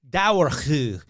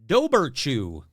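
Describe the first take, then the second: First: The middle consonant is a w sound. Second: The middle consonant is a b sound. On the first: The speaker calls it right. "Now let's hear how we pronounce it correctly" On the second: The speaker calls it wrong. "here's what I would say had I not looked it up"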